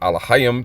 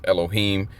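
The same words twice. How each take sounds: First: The word is said without E and O vowels. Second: The word is said with E and O vowels. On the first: The speaker calls it right. "but it's actually" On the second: The speaker calls it wrong. "the false pronunciation is"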